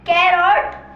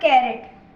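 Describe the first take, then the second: First: The second syllable has a long, full 'o' vowel. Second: The second syllable has a short, reduced vowel. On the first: The speaker calls it wrong. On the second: The speaker calls it right.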